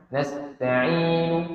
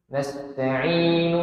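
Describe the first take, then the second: The two takes are said the same way.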